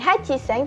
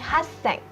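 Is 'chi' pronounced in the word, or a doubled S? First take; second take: chi; doubled S. First: The full syllable chi comes before sen. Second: A doubled S sound replaces the chi syllable. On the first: The speaker calls it wrong. "bukan hachiseng" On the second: The speaker calls it right. "tetapi hasseng"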